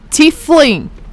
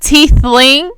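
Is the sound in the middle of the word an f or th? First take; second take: f; th. First: The middle sound is an f. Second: The middle sound is a th. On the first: The speaker calls it right. "With an F! Tiefling, not teeth" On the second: The speaker calls it wrong. "That's how I pronounced it at first"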